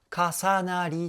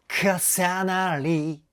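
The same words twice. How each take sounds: First: 重なり in even, vowel-led Japanese syllables; Japanese pronunciation. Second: 重なり with K and S punched hard, English-like; 重なり stretched slow and loud on strong consonants; English-style consonants. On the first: Music reactor contrasting with the group's singing, plain Japanese pronunciation. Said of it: "って歌うと日本語発音なんですけど". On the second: Music reactor demonstrating the group's diction, English-style consonants. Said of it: "KとかSの発音っていうのが". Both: Shown as a demonstration.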